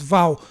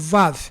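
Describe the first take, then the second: First: The name ends with an l sound. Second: The name ends with a v sound. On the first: This is how Brazilians usually say it. "aqui no Brasil nós chamamos de Val" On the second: This is how it is properly pronounced. "mas pronuncia-se"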